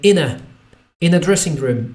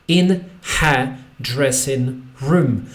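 First: The h is dropped and 'in' links on. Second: The h in 'her' is pronounced clearly.

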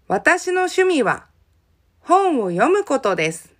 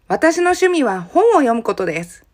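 First: The sentence is spoken a little more slowly. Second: The sentence is spoken at a normal pace.

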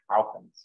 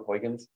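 First: It is said with a Dutch pronunciation. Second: It is said with an English pronunciation. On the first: "It in Dutch is like Huygens" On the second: "Anyone remember Huygens?"

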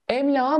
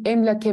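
First: The consonant before the ending is a soft g. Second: The consonant before the ending is a k. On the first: The speaker calls it wrong. "Emlağa mı diyeceğim" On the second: The speaker calls it right. "emlake şeklinde olması gerekecek"

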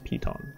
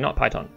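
First: It is said as piton, unlike the snake. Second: It is said like the snake's name, python. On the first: The speaker calls it right. "I am now correcting my pronunciation. It's piton" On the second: The speaker calls it wrong. "not python. Sorry, someone corrected me"

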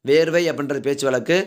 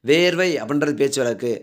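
No difference in how they are said.

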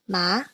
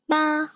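First: It is said with the second tone. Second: It is said with the first tone. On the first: "The second tone is represented with an acute accent" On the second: "here are some examples of some words with this first tone"

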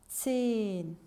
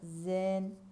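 First: The word is said with a German-style z. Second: The word is said with a Turkish-style z. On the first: The speaker calls it right. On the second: The speaker calls it wrong.

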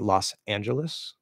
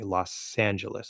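First: The two words are separated by a pause. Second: The two words are linked without a pause. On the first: The speaker calls it wrong. "I'm not going to say Los Angeles. Like, it's going to sound weird" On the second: The speaker calls it right. "All the same linking and flow rules apply"

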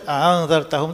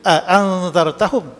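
First: The second glottal stop is softened and eased. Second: Both glottal stops are fully pronounced. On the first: "sama juga dengan wash tadi" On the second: "Kalau kita baca biasa, kalau Hafs"

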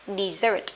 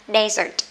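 First: The stress is on the second syllable. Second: The stress is on the first syllable. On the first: It is a verb meaning to abandon. "động từ thì sẽ là gì đây? Dessert, nghĩa là bỏ hoang" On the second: It is a noun meaning a dry barren region. "nếu mà là danh từ á, nó sẽ đọc là desert, âm một nhá"

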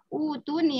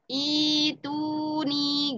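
First: The word begins with a u vowel. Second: The word begins with an i vowel. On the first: The speaker calls it wrong. "Biasanya kan bacanya utuni harusnya ya" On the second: The speaker calls it right. "Ini gharib. Jadi dibacanya i"

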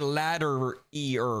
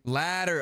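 First: The word ends with an extra 'ear' syllable. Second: The word ends plainly without an extra syllable. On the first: The speaker calls it wrong. "What the heck is that?" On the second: The speaker calls it right. "Oh, that's how you say it"

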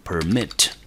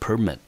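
First: The stress is on the second syllable. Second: The stress is on the first syllable. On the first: It is a verb meaning to allow. "这是当作它的动词" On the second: It is a noun meaning a licence. "它的重音节落在第一个音节"

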